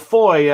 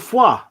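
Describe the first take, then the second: First: The name is said with an English 'foy' sound. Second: The name is said with a French 'fwa' sound.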